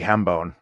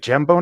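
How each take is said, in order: First: It starts with a Spanish-style H sound. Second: It starts with an English J sound.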